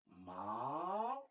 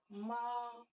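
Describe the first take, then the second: First: The pitch dips down and then rises. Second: The pitch stays high and level. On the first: It means horse. "Troisième ton, il y a un truc qui descend et qui monte" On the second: It means mother. "le premier ton est manifesté par euh, les traits plats"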